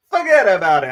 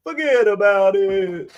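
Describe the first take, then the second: First: Lightly voiced New York "forget about it"; a hint of a New York accent. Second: Drawn-out New York "forget about it", slow; slow, mild New York accent. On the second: Pretend. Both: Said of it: "the real New Yorker accent".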